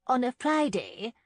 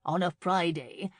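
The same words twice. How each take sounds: First: FRIDAY pitched high and loud, lifting at the end; clarifying interjection. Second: Said in the usual way. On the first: A narrator's reading. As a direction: punch Friday up high to correct the detail. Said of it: "clarified Missus Clark".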